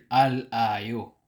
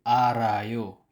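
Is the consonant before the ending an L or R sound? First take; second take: L; R. First: The consonant is an L sound, kept separate. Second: The consonant is an R sound linked forward. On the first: The speaker calls it wrong. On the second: The speaker calls it right. "babalik siya sa initial sound na R"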